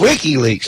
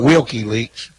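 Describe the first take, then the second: First: The first part is said without an L sound. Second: The first part is said with an L sound. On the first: The speaker calls it right. "WikiLeaks, not Wilkie Leaks" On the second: The speaker calls it wrong. "not Wilkie Leaks"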